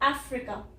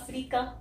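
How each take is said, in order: First: It starts with an open 'a' and a short 'i'. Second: It starts with a short 'uh' and a long 'ee'. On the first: The speaker calls it right. "यहाँ पे ये ए बोलना बहुत जरूरी है" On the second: The speaker calls it wrong. "आप अ बोल देते हैं और यहाँ पे बड़ी ई कर देते हैं"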